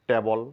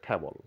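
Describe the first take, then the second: First: The first t is plain and unaspirated. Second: The first t is strongly aspirated. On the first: The speaker calls it wrong. "টেবল না বলে" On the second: The speaker calls it right. "বলতে হবে ঠেবল"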